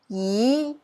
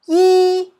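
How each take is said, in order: First: It is said with Cantonese tone two. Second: It is said with Cantonese tone one.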